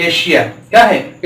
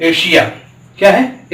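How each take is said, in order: The two takes are said the same way.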